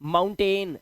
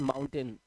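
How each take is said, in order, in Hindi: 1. आखिरी अक्षर 'ain' जैसा सुनाई देता है। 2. आखिरी अक्षर 'un' जैसा सुनाई देता है। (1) "हम इस वर्ड को पढ़ लेते हैं" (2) "इसको हम ए नहीं, इसको अन पढ़ते हैं"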